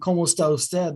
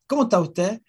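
First: The S sounds are fully pronounced. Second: The S sounds are dropped. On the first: "instead of saying" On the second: "The Chileans have this way of speaking where they drop a lot of their S's"

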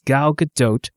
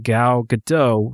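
First: Gadot ends with an 'oat' sound and a T. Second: Gadot ends with 'oh' and no T. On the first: The speaker calls it right. "rhymes with tote" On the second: The speaker calls it wrong. "nor Gal Gadot rhymes with Merlot"

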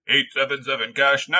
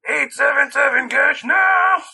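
First: It is said in a non-Rita voice. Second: It is said in the Rita voice.

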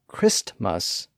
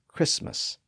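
First: The T sound in the middle is pronounced. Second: The T sound in the middle is silent. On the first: This is the older pronunciation. "That's how Christmas became" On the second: This is the later pronunciation. "the T became silent after an S"

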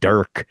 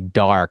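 First: The vowel is a central 'ir' sound. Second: The vowel is an open 'ar' sound. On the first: "but he says it dirk" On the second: "I want to say dark"

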